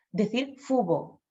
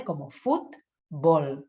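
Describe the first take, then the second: First: Fubo with the final t and l dropped from fútbol; child's mispronunciation. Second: Fútbol with a clear t and final l, slow; correct pronunciation. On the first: Retold or imitated. Toddler saying fútbol as fubo, lightly imitated. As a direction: drop the endings: fubo. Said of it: "en lugar de decir fútbol". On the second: Shown as a demonstration. Therapist modelling the correct word fútbol, slow. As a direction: say fútbol slowly, every consonant clear. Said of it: "consonantes que hay al final de sílaba".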